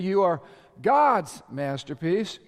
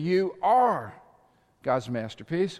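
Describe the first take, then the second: First: The stress is on "God's". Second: The stress is on "are".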